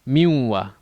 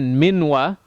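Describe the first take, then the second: First: The n blends into the w, nasalised. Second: The n is said fully before the w. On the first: The speaker calls it right. "we'd say miwa" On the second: The speaker calls it wrong. "instead of saying minwa"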